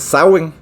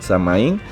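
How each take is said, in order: First: It is said the English way, unlike its spelling. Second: It is read the Spanish way, following its spelling.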